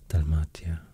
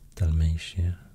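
First: It is said with a Roman-style pronunciation. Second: It is said with an English-style pronunciation. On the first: "the Roman pronunciation is more like" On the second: "the English pronunciation of these are usually maybe"

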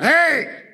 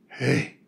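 First: It is an angry, sharp shout. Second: It is soft and admiring.

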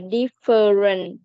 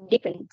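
First: The word is said with three syllables. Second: The word is said with two syllables. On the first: The speaker calls it wrong. "chứ không phải là different" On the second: The speaker calls it right. "Nó chỉ có hai âm tiết thôi"

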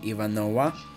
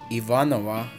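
First: The name is said with an American pronunciation. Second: The name is said with a non-American pronunciation.

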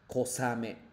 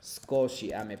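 First: It is said as one short word, kosame. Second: It is said as two words, sukoshi ame. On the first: The speaker calls it right. "sino kosame" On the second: The speaker calls it wrong. "la forma de leer nada que ver con skoshi-ame"

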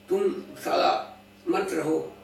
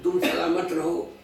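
First: A break splits 'सलामत' into 'सला' and 'मत'. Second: 'सलामत' is said as one unbroken word.

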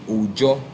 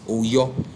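First: The middle consonant is a 'j' sound. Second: The middle consonant is a 'y' sound. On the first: "They pronounce it as J" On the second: "the name of God is Oyo"

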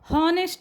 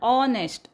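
First: The word starts with an H sound. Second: The word starts with a vowel sound. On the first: The speaker calls it wrong. "हॉनेस्ट म्हणत नाही आपण" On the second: The speaker calls it right. "ऑपासूनच वाचायचं आहे"

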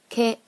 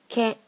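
Both takes have the same delivery.

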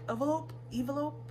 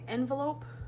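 First: The word is said without the N sound. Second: The word is said with the N sound. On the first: "like without the N" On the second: "instead of saying envelope"

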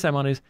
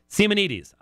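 First: The name is said the usual English way. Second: The name is said the modern Greek way. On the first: The speaker calls it wrong. "Did I say Simonides?" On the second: The speaker calls it right. "I'm trying to do the modern Greek pronunciation"

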